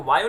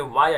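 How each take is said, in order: First: "वायो" with an o sound at the end; mispronounced example. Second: "वाया" with an a sound, no o; correct pronunciation. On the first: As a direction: say "वायो" ending in o. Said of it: "इसको वायो नहीं बोलेंगे". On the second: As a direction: say "वाया" ending in an open a. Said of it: "ये भी sound ए की produce कर रहा है". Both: Shown as a demonstration.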